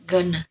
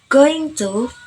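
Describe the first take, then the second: First: It is reduced to one short word. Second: It is said in full as two words. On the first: "often shortened to gonna by omitting the ng and to sounds" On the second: "The original word is going to"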